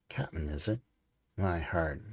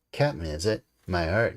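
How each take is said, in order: First: Muttered aside. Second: Mocking exclamation. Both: A narrator's reading. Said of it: "you could hear himself adding".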